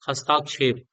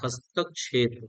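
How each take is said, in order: First: A long 'aa' vowel follows 'hast'. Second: No long vowel follows 'hast'. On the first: The speaker calls it wrong. "ये गलत हो जाएगा।" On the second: The speaker calls it right. "हस्तक्षेप होता है"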